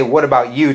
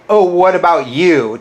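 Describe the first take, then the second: First: Said in the usual way. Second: Mocking their whiny comeback, a touch louder; mocking quote. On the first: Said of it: "So I have to say". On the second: Vlogger mimicking a critic's comeback, mildly mocking. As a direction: throw their retort back at them, sneering. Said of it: "You say".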